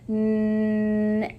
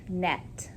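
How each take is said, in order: First: The word is said slowly and stretched out. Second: The word is said at normal speed.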